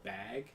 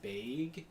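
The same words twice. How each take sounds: First: Bag has a short, plain, unglided vowel. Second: Bag has a drawn-out, gliding Midwestern vowel. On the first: This is how everyone else says it. "instead of" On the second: This is how Midwesterners say it. "like the Midwest, they say bag"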